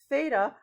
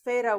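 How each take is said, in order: First: The word begins with a th sound. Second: The word begins with an f sound. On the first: The speaker calls it right. "it makes the th sound, just like thin" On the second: The speaker calls it wrong. "not theta with an F, that's cheese"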